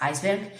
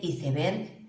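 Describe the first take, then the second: First: It is said with an English pronunciation. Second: It is said with a Spanish pronunciation. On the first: "a lo mejor estáis habituados a escucharlo en inglés" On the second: "en el español de España sí adaptamos"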